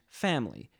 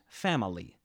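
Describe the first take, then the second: First: One or more sounds are left out. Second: Every written sound is pronounced in full. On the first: "I say ... family ... My pronunciations contain elisions" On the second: "instead of ... family"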